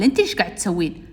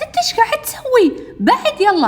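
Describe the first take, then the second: First: Retold boy's retort. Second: Put-on very high, loud girlish protest; acted high-pitched outrage; indignant confrontation. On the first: Boy throws her question back. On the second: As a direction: squawk at him to back off. Girl confronts boy snatching the photo.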